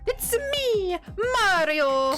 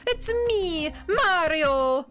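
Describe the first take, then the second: First: It is said in a high-pitched Mario voice. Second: It is said in a lower, more normal-pitched voice.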